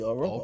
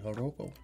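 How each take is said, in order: First: The word begins directly with a vowel. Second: The word begins with an H sound. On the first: "or the J might not even be there. It might be Joropo" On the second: "Could be Joropo, because it could be Spanish"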